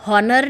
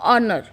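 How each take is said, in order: First: The word begins with an h sound. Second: The word begins with a vowel sound. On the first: The speaker calls it wrong. "हॉनर नहीं बोलते हैं" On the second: The speaker calls it right. "We always use"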